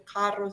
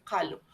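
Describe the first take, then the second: First: Said in the usual way. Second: "calo" with a light l where the rolled rr should be; child's mispronunciation. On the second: Shown as a demonstration. Therapist showing parents a child's dyslalia, "calo" with l for rr. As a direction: say "calo" as a toddler who cannot roll the r. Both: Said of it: "el que cambia una letra por otra".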